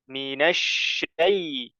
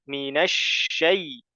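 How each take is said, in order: Both takes have the same delivery.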